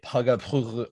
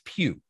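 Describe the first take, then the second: First: The name is said as two syllables. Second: The name is said as one syllable. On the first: The speaker calls it wrong. "I get Pugga all the time" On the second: The speaker calls it right. "mine's Pugh"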